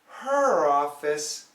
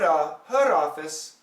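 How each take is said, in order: First: The two words are linked by an R sound. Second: The two words are linked by a D-like tap. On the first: The speaker calls it right. "but we want the R. No touching" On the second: The speaker calls it wrong. "If it were a D"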